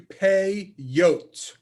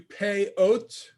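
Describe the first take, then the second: First: A y glide joins the two vowels. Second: The two vowels meet with no y glide. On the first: The speaker calls it right. "the correct way is pay yote" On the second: The speaker calls it wrong. "You could do pay oat"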